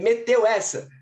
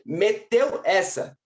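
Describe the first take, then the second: First: The phrase is said at a quicker pace. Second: The phrase is said at a slower pace. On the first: "Say it slow for me" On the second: "Say it slower"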